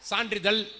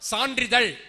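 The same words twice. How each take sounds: First: The final consonant sounds like a plain l. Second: The final consonant is the retroflex zh sound. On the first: The speaker calls it wrong. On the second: The speaker calls it right.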